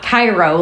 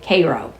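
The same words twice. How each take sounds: First: The first syllable sounds like 'kye'. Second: The first syllable sounds like 'care'. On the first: This is how the Egyptian city's name is said. The speaker calls it wrong. "Not Cairo, like Egypt" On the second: This is how the Missouri town's name is said. The speaker calls it right. "That's how they pronounce it, Cairo, like the syrup"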